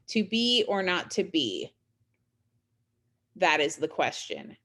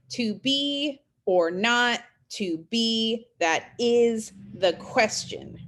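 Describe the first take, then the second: First: Long pause after "To be or not to be"; caesura pause. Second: Slow "to be or not to be", leaning on every second word; iambic stress. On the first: Teacher showing Shakespeare's caesura to students, long pause after "To be or not to be". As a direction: hold a clear break before "That is the question". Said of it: "So that pause after". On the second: Teacher scanning Shakespeare's iambs for students, slow stressed beat on "to be or not to be". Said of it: "those are iams because you have unstressed". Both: Shown as a demonstration.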